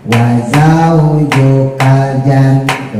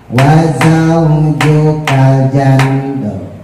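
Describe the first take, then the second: The two takes are said the same way.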